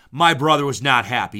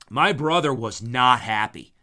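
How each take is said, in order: First: Louder, still chuckling through it; laughing repeat. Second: Said in the usual way. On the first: Real, not acted. Retelling brother's defeat to listener, louder and amused.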